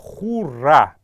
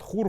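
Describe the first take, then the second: First: The word ends with a faint vowel after r. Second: The word ends on the consonant r. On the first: This is the standard form. "после буквы р есть неясная э, гласная" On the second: This is the everyday spoken form. "в основном все говорят хур"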